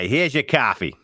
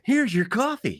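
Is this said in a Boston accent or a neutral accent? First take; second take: Boston; neutral. First: It is said in a Boston accent. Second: It is said in a plain, neutral accent. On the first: The speaker calls it right. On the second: The speaker calls it wrong.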